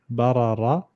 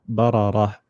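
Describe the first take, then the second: Both takes have the same delivery.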